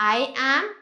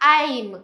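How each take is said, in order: First: Two separate words, two syllables. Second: Run together as one syllable. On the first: "ఐ యామ్ ఎలా పలకాలి మనం?"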